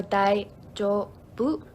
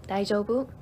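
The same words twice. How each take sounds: First: "Daijoubu" drawn out in separate syllables. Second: Said in the usual way. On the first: Shown as a demonstration. Teacher showing learners a new word, slowly syllable by syllable. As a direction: say "Daijoubu" very slowly, pausing between its parts.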